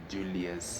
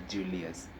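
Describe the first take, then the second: Both takes have the same delivery.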